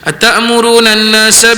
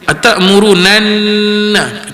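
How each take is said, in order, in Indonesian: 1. Bunyi sengau dilewati tanpa ditahan. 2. Bunyi sengau ditahan selama dua ketukan. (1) "di sekolah budak-budak baca macam ni" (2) "kita kena dua harakat situ"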